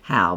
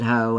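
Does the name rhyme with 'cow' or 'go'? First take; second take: cow; go. First: The vowel sounds like the one in 'cow'. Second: The vowel sounds like the one in 'go'. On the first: "and some How" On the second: "some places pronounce it Ho"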